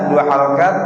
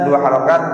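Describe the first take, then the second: No difference in how they are said.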